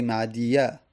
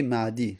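First: "معدیه" with the final y voweled, the wrong way; تلفظ نادرست معدیه; wrong form demo. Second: "معدی" ending on a still, unvoweled y; معدی با یای ساکن; correct form demo. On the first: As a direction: say "معدیه" as the error. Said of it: "میگه معدی". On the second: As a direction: close "معدی" with no vowel after the y. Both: Shown as a demonstration.

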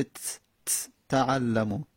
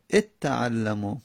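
First: تعلمو begun on a bare, vowelless t; vowelless first letter. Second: اتعلمو opened with "et", leaning into a doubled t; اتعلمو with an added initial e before the double t; helping vowel in front. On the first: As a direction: isolate a "ts" ت, pause, then say تعلمو. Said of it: "که ادغام بشه". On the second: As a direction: say "et-ta'allamu" for اتعلمو, slowly. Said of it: "الف میاریم". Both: Shown as a demonstration.

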